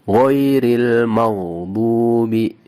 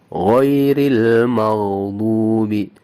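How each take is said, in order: Both takes have the same delivery.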